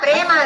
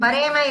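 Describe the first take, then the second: First: The p and r are joined with no vowel. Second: A vowel is inserted between the p and r. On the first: The speaker calls it right. "பிரேம பிரேம" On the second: The speaker calls it wrong. "அது பரேம பரேம இல்ல"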